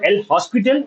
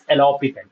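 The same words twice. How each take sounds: First: The s in the word is pronounced. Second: The s in the word is silent. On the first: The speaker calls it wrong. "it is not El Hospital" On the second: The speaker calls it right. "It is El Hospital"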